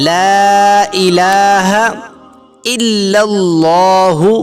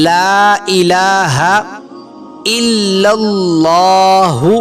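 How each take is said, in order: Both takes have the same delivery.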